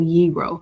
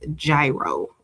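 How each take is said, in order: First: It sounds like hero without the h. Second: It does not sound like hero. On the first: It names the food. "So like hero, but without the H" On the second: It names an engineering or aviation device. "in engineering or aviation context, they use gyro"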